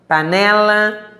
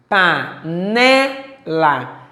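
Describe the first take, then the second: First: Slow whole-word reading of panela; read aloud. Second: Panela split PA, NE, LA, strong stretched NE; syllable by syllable. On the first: Teacher reading a word list aloud to pupils, slow read-aloud. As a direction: say panela in one stretched, careful piece. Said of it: "Leia as palavras a seguir em voz alta". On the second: Teacher showing a paroxítona, syllable by syllable. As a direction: say panela very slowly, leaning on the middle NE. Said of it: "A sílaba tônica". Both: Shown as a demonstration.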